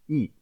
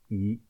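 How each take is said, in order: First: The pitch falls sharply from high to low. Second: The pitch rises from mid to high. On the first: "Ce quatrième ton se prononce I" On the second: "Pour le même chiffre 1 mais au deuxième ton"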